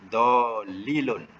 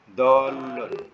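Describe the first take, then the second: First: The word is said with three syllables. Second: The word is said with two syllables. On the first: The speaker calls it wrong. "Ini semasa dia ikut wazan sahihnya" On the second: The speaker calls it right. "kita kena ubah dolilun jadi apa yang betul?"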